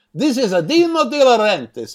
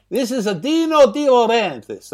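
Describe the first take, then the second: First: Higher, thick mock Italian accent; hammed-up Italian accent; over-the-top Italian accent. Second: Higher mock Italian accent; hammed-up Italian accent; over-the-top Italian accent. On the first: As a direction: announce yourself like a caricature Italian producer. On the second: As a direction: repeat the name in a caricature Italian accent. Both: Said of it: "most over-the-top and unbelievable Italian accent".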